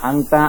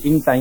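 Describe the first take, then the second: First: It starts with an 'a' vowel, standard style. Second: It starts with an 'i' vowel, Saudi style. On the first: This is the standard form. "শুদ্ধ ভাষায় আংতা, আংতি বলি" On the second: This is the regional Saudi form. "Saudi আরবে ইনটা, ইনতি ব্যবহার করে"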